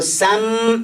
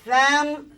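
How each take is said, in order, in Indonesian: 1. Kata itu diawali bunyi s yang mendesis. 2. Kata itu diawali bunyi th yang cadel. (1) "Kalau sam jadi sin" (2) "Lidah terletak antara gigi atas dan bawah"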